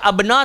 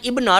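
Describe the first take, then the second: First: The word begins with an a vowel. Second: The word begins with an i vowel. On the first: The speaker calls it wrong. "tak boleh baca abna" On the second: The speaker calls it right. "kita kena start dengan ibna lah"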